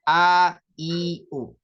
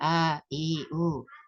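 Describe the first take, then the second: First: The vowels are said with the breath held. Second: The vowels are said with breath escaping. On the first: The speaker calls it right. "Tapi ... Jadi nafasnya tertahan" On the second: The speaker calls it wrong.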